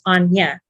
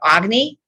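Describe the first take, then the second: First: The name is said without any g sound. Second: The name is said with a hard g sound. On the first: The speaker calls it right. "it's pronounced Anya" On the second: The speaker calls it wrong. "It's not pronounced Agni"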